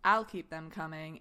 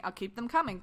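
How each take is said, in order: First: Suggestive. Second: Said in the usual way. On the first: Retold or imitated. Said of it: "It was the way you said it". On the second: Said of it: "instead of saying".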